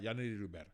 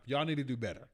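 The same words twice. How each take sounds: First: Same scolding line, dropped softer, need stressed; quieter repeat. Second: Said in the usual way. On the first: Real, not acted. Streamer repeats scolding to chat, softer. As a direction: mutter it again under the breath. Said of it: "repeated louder". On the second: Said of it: "repeated quieter".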